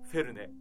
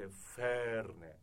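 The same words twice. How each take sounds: First: The first vowel is held short. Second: The first vowel is held long. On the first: The speaker calls it wrong. "フェルネじゃなくて" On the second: The speaker calls it right. "ドイツ語のアクセントは長くなります"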